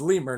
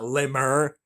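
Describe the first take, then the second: First: The word is pronounced in a plain, ordinary way. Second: The word is pronounced in a fancy, affected way. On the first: The speaker calls it right. "it's lemur" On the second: The speaker calls it wrong. "don't try to church it up, son"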